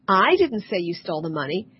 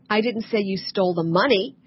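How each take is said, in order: First: Didn't lifted with a rise, the rest even; stress on didn't. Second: Money weighted at the end, earlier words even; stress on money. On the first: Coach demonstrating stress on didn't to an audience. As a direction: lean on the word didn't. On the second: Coach contrasting stress on money for an audience. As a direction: push the stress onto money. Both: Shown as a demonstration. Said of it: "is different from".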